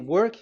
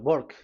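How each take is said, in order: First: The word starts with a W sound. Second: The word starts with a B-like sound. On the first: "So if you say work" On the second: "W is pronounced as B. ... they say uh"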